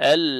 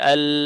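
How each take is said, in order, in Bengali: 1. শব্দটা l উচ্চারণেই পরিষ্কারভাবে শেষ হচ্ছে। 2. শব্দটা l উচ্চারণেই পরিষ্কারভাবে শেষ হচ্ছে।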